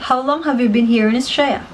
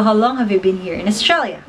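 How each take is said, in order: First: "Australia" reduced to "Straya"; shortened Aussie pronunciation. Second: Said in the usual way. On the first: Shown as a demonstration. Example question for viewers, "Australia" shortened to Straya. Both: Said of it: "for example".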